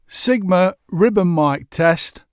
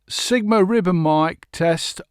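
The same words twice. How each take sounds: First: The voice sounds darker and more muted. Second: The voice sounds brighter and more open. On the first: "it is a darker type of effect" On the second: "on axis"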